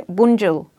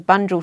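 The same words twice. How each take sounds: First: "Bunjil" as "WOON-jil", starting with a "w"; corrected pronunciation. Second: "Bunjil" as "BUN-jil", with an English "b"; anglicised pronunciation. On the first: Retelling colleague correcting herself, the language way. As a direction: say "Bunjil" with a rounded "woon" opening. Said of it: "she'll change, "Oh, sorry". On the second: Retelling colleague's slip before she corrects herself, anglicised. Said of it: "she'll change". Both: Retold or imitated.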